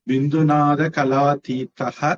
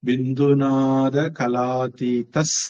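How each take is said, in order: First: The last word ends in a breathy h sound. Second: The last word ends in an s sound. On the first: The word is read on its own, separated. "கலாதீதஹ அப்படின்னு தான் சொல்லணும், தனியா பிரிச்சு படிச்சா" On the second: The word is joined to the next word. "அந்த விசர்க்கத்தை இஸ்ஸா மாத்தி சேர்த்து சொல்லணும்"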